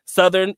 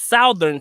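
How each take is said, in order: First: Said in the usual way. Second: Second Southern as "SOW-thern", first vowel as in "how"; Southern pronounced "SOU-thern", rhyming its start with "cow"; Filipino pronunciation. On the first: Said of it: "how most Filipinos pronounce". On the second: Shown as a demonstration. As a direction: give Southern an OW vowel, as spelled. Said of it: "is Southern to them".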